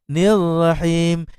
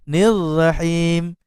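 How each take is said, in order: The two takes are said the same way.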